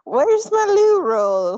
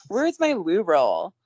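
First: High, slow, loud put-on British voice; drawn-out British whine for toilet paper; mock British loo roll line. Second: Slow, loud echo of the loo roll line; slow parody of a British phrase; echoed British quote. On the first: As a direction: ham up a posh British plea for loo roll. Mock British quote, laughed. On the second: Pretend. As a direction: repeat it back in a put-on British voice. Repeats the line back.

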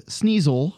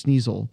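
First: "sneasel" said slowly and deliberately as SNEE-zul; careful pronunciation. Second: Said in the usual way. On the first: Shown as a demonstration. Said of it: "one of them is sneasel". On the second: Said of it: "So there's sneasel".

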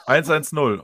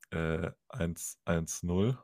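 First: Louder, eager repeating of eins eins null. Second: Softer, very slow, lower eins eins null; slow patient answer. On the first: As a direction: bark back eins eins null, pleased. Drunk repeats number to operator. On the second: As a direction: spell out eins eins null slowly as to a fool. Operator slowly gives number. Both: Retold or imitated.

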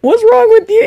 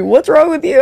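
First: High, mocking repeat of his question; mimicking a careless question, high and mocking; mocking high whine. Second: Mocking repeat. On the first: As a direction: parrot him in a squeaky voice. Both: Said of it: "He said that to me".

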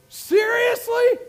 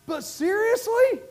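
First: Seriously stretched slow and shouted high; slow, rising shout on Seriously; loud, drawn-out Seriously. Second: Said in the usual way. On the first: Acted. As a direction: lean into Seriously with a preacher's shout.

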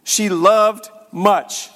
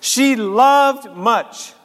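First: "loved" drawn out slowly; stress on loved. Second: "loved" held long and slow; slow stressed loved. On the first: Preacher savoring Jesus' words, slow stress on loved. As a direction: stretch "loved" in "She loved much". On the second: Preacher repeating Jesus' words, slow held loved. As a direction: linger on "loved" in "She loved much". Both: Shown as a demonstration. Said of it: "I love that Jesus would say that".

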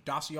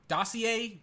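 First: "Dossier?" clipped to TAH-see, lower and softer; retry "Dossier?" quietly to himself; second guess. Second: "Dossier?" tried aloud as TAH-see-ay with a questioning fall; first guess at "Dossier?", sounding it out; unsure pronunciation. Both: Shown as a demonstration. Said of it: "I don't know how you say his last name".

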